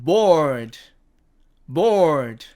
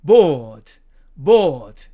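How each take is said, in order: First: BORED with a sounded r; American bored. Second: BORED as "bawd", r dropped; long open o and no r in BORED; British bored. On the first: Teacher showing American pronunciation, BORED with a clear r. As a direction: curl an r before the d in BORED. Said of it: "미국식 발음으로는". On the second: Teacher showing British pronunciation, BORED without r. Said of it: "영국식 발음에서는". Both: Shown as a demonstration.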